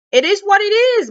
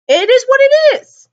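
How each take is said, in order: First: Said in the usual way. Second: Loud exclaim. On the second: Real, not acted. Repeated resigned phrase.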